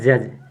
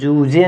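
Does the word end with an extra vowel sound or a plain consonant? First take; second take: plain consonant; extra vowel. First: The word ends on a plain j consonant. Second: The final e is sounded as an extra vowel. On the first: The speaker calls it right. "ये आपका लिखा है जज" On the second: The speaker calls it wrong. "जूझे नहीं पढ़ेंगे"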